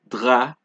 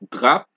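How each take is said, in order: First: The final P is silent. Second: The final P sound is pronounced. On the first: The speaker calls it right. "It is ... drap" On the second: The speaker calls it wrong. "it is not drap"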